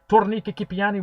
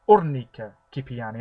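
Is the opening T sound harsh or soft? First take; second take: harsh; soft. First: The opening T is pronounced harshly. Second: The opening T is pronounced softly. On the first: The speaker calls it wrong. "as harshly as I have been" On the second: The speaker calls it right. "I don't think you pronounce the T as harshly"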